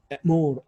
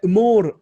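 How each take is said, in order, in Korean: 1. 첫 번째 모음은 짧은 'e'예요. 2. 첫 번째 모음은 짧은 'uh'예요. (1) "애를 살짝 첨가해 주는 발음이 더 편한 거죠" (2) "으모르라고 발음해야 되는데 으모르라고 발음하기 어려우니까"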